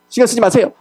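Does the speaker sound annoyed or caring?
annoyed. It is said in an irritated, offended tone. The person is upset and wants to be left alone. The speaker calls it wrong.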